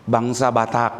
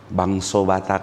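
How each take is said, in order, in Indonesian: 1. Kata pertama berakhir dengan vokal 'a'. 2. Kata pertama berakhir dengan vokal 'o'.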